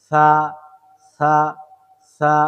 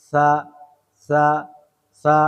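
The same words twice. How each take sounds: Both takes have the same delivery.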